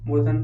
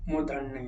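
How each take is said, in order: First: मूर्धन said without the final "ya" sound; wrong form. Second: मूर्धन्य said with a final "nya"; correct form. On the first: Teacher showing students the misspelt word, wrong form मूर्धन ending on "n". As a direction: say मूर्धन loudly, ending on a bare "n". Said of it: "ये वाला अशुद्ध होगा". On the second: Teacher giving students the corrected word, correct form मूर्धन्य ending on "nya". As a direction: finish मूर्धन्य on the full "n-ya" cluster. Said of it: "शुद्ध तो ये है ही". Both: Shown as a demonstration.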